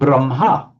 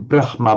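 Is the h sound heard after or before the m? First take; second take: after; before. First: The h sound comes after the m. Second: The h sound comes before the m. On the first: It follows the traditional convention. "pronounced as Brahm, the other way round" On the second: It follows the written order. "not pronouncing Brahma"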